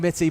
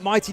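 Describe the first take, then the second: First: The first vowel is a short 'i' sound. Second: The first vowel is a long 'eye' sound. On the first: The speaker calls it right. "It's definitely Mitty" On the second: The speaker calls it wrong. "but Mighty does sound cool"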